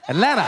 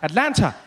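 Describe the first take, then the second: First: The middle T sound is dropped. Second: The middle T sound is clearly pronounced. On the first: "The T was gone" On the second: "when I got here, every time I said, I'll say Atlanta"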